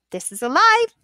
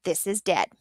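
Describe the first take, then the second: First: Bright, higher, lively. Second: Said in the usual way. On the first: Shown as a demonstration. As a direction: say it with life and bounce.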